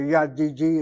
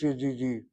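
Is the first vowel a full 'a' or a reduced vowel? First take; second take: full; reduced. First: The first vowel is a full 'a' sound. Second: The first vowel is reduced to a short 'e'. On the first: The speaker calls it wrong. "You don't say yadidi" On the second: The speaker calls it right. "this kamash reduces shana, as the accents on the last syllable"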